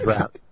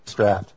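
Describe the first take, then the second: First: The word rhymes with 'out', with an ow vowel. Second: The word rhymes with 'craft', with a short a. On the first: The speaker calls it wrong. "How my American mind reads this" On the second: The speaker calls it right. "You said it correctly. I finally harassed you into pronouncing it draft"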